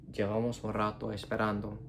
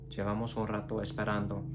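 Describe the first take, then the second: Both takes have the same delivery.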